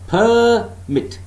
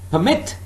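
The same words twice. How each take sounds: First: The stress is on the first syllable. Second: The stress is on the second syllable. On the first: The word is used as a noun. "remember the first syllable is stressed" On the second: The word is used as a verb. "I'm stressing the second syllable"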